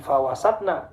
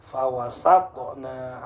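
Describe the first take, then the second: First: FAWASATNA with a dead T before 'na'; wrong, no bounce. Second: FAWASATNA slowly as 'fawasa-to-na', T bounced; bouncing qalqalah. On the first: Teacher shows mistake to avoid, unbounced T. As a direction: join T to 'na' in FAWASATNA, no echo. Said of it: "Bukan fawasatna". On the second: Teacher gives correct reading, bouncing T. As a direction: release T with an echo before 'na' in FAWASATNA. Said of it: "Harus memantul". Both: Shown as a demonstration.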